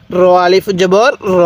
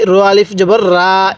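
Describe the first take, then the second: First: র closed short with no long aa; the correct reading, র cut short; correct short ending. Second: রা with the final vowel stretched into a long aa; the mistaken reading, ending র as a long রা; wrong long ending. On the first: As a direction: end on a short র, no stretch. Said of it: "কিভাবে পড়বেন?". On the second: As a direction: end the syllable as রা, drawn out. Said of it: "এরকমভাবে কখনো পড়বেন না". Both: Shown as a demonstration.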